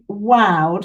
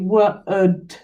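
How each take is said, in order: First: The vowel sounds like 'ow'. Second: The vowel sounds like 'oo'. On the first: The speaker calls it wrong. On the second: The speaker calls it right.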